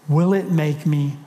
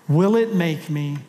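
No difference in how they are said.

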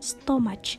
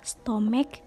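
First: The word ends with a ch sound. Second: The word ends with a k sound. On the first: The speaker calls it wrong. "bukan stomach" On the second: The speaker calls it right. "melainkan dengan akhiran K. Jadi, pengucapan yang benar ialah stomach"

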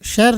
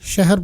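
First: The h is not pronounced as a separate sound. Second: The h is pronounced as a separate sound. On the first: The speaker calls it right. "ਅਸੀਂ ਸ਼ਹਿਰ ਨਹੀਂ ਬੋਲਦੇ" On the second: The speaker calls it wrong. "ਸ਼ਹਿਰ ਬੋਲਦੇ ਹਾਂ"

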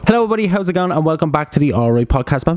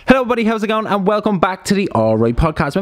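First: The greeting is said with low energy. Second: The greeting is said with high energy. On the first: The speaker calls it wrong. "Come on, a bit more energy now" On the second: The speaker calls it right. "That's a better one"

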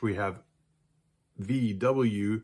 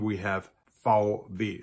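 First: The letters are named the English way. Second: The letters are named the German way. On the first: "So in English" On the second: "In German"

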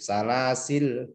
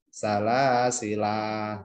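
First: The final vowel is dropped entirely. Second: The final vowel is held long. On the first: "boleh sukun" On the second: "atau panjang satu alif"

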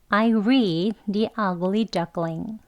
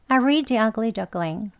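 First: The sentence is spoken slowly. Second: The sentence is spoken quickly. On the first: "천천히 해볼게요" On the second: "빨리 더 해볼게요"

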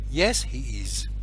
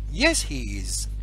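The two takes are said the same way.

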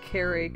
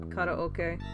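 First: It is said with anglicized English vowels. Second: It is said with Japanese vowels and rhythm. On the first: The speaker calls it wrong. "it said it like karaoke" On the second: The speaker calls it right. "instead of karaoke"

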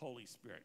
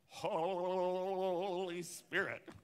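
First: It is said in a plain, ordinary voice. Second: It is said in an exaggerated, theatrical voice. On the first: The speaker calls it right. "they couldn't just say Holy Spirit" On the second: The speaker calls it wrong. "they had to go, ... put a little heebie-jeebie in there"

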